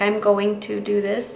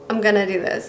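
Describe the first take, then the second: First: 'Going to' is said fully, as two clear words. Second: 'Going to' is reduced to one short word. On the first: The speaker calls it right. "instead of saying going to" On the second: The speaker calls it wrong. "I say gonna"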